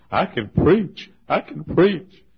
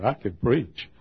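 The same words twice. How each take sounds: First: Higher and louder, drawn out with a rising end; swelling jubilant proclamation; excited cry. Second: Said in the usual way. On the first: Retold or imitated. Pastor exulting in the park that he can still preach, building cry.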